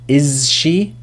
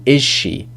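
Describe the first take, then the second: First: The z of 'is' is said clearly. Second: The z of 'is' blends into the sh. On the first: "It is quite tricky to say" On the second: "we assimilate the z sound"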